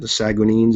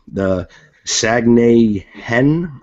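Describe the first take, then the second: First: The name ends with an 'eens' sound. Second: The name ends with an 'en' sound. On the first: "is what I've been calling them" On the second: "I guess is the way you pronounce it"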